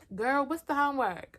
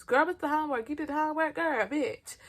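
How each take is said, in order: First: A touch higher, lightly voiced classmate; mild mock of classmate's high voice. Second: Higher, sassy mock classmate asking about homework; imitating classmate's high voice. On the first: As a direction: ask like a sassy classmate. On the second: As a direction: camp it up in a high pitch. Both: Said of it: "I'm just gonna do his voice".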